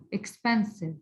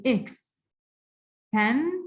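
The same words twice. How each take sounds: First: Said in the usual way. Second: "expensive" as "ex", "pen", "sive", long pauses between; divided into syllables. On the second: Shown as a demonstration. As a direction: slowly separate the three beats of "expensive". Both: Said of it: "three syllables".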